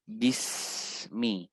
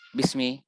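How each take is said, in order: First: The s sound flows and is drawn out. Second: The s sound is rushed and cut short. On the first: The speaker calls it right. "biarkan dia mengalir" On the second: The speaker calls it wrong. "jangan ... jangan cepat-cepat"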